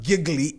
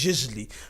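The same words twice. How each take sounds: First: The title is pronounced the English way. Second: The title is pronounced the French way. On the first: The speaker calls it wrong. "It's not English, not giggly" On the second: The speaker calls it right. "It's French"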